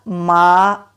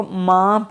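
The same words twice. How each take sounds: First: मा said slowly with a clean, un-nasal aa; slow, clear मा; plain ma. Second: माँ said with a nasal long vowel; wrong nasal maa. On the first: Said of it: "सीधा मा". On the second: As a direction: say माँ nasalised, the common mistake. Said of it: "इसको माँ नहीं पढ़ेंगे". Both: Shown as a demonstration.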